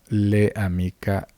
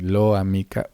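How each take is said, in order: First: An extra e vowel follows the l. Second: An extra o vowel follows the l. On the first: "vamos a crear otro tipo de fonemas que en realidad no están presentes" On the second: "u otro tipo de sonidos que en realidad no están presentes"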